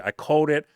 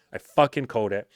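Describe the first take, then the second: First: Higher, louder, called stretched out; I called it, gloating and raised. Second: Fucking hit hard, falling at the end; I fucking called it, weight on fucking; stress on fucking. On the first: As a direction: crow I called it with glee. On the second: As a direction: punch the word fucking. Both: Real, not acted.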